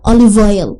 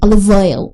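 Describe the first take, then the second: The two takes are said the same way.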